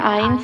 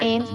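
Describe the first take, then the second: First: The vowel is a gliding 'eye' sound. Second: The vowel is a short 'eh' sound. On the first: The speaker calls it right. "आइंस है" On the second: The speaker calls it wrong. "एन्स नहीं है"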